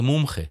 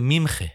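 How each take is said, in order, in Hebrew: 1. התנועה הראשונה היא צליל 'u'. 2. התנועה הראשונה היא צליל 'i'. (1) "הסלנג או ההגה הירושלמית זה מומחה" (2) "אבל להם זה מימחה"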